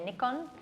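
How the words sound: It is said the Australian way.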